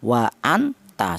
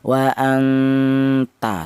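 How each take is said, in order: First: The n is pronounced fully and distinctly. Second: The n is blurred into a nasal sound. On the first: The speaker calls it wrong. "dibaca jelas ... seperti itu tidak boleh" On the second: The speaker calls it right. "dibaca ikhfa atau disamarkan"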